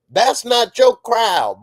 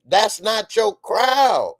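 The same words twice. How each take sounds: First: Loud, slow, stern warning; emphatic scolding. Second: Emphatic repeat. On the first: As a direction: lay down the law. Scolding the character. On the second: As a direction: hammer it home, slow and loud. Repeated scolding. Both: Acted.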